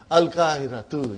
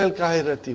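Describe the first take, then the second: First: The word ends with a u vowel. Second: The word ends with an i vowel. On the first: The word starts the sentence with nothing governing it. The speaker calls it right. "So what will you say? Al-kahiratu. Yes" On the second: The word is treated as governed by a preposition. The speaker calls it wrong. "Why will you make it majroor?"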